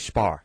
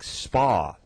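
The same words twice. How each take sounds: First: Spa ends with an added R sound. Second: Spa ends plainly, with no R sound.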